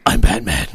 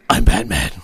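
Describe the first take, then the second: First: The voice is rough, deep and gravelly. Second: The voice is rough, deep and gravelly.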